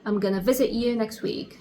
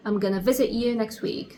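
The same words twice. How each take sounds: First: 'Going to' is reduced to 'gonna'. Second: The same.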